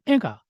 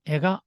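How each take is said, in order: First: 에가 with high first 에, falling on 가; head-high accent. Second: 에가 with 가 kept up, no drop; flat accent. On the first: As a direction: start 에가 high, drop on 가. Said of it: "두고형 같은 경우는". (두고형, 에가의 에를 높게, 가는 낮게) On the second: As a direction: keep 에가 level through 가. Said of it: "평판형은". (평판형, 에가를 끝까지 떨어뜨리지 않고) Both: Shown as a demonstration.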